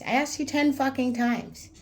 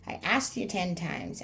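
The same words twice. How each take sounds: First: Louder and higher, punching ten; angry shout. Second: Said in the usual way. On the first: Retold or imitated. Telling off a jealous friend, angry shout. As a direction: yell it in his face, fed up.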